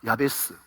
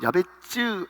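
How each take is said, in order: First: The name ends with a plain s sound. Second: The name ends with a ts sound.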